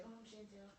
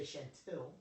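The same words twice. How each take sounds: First: Timid mumble. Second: Said in the usual way. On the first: Retold or imitated. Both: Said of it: "Your projection in your voice".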